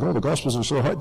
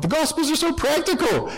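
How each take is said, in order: First: Said in the usual way. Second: "so" pitched up high, then a falling finish; emphatic correction. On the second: Shown as a demonstration. Priest correcting his listeners, "so" lifted high. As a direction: land hard on "so" to correct the crowd.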